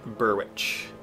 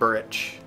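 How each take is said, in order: First: The w sound in the middle is pronounced. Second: The w sound in the middle is silent.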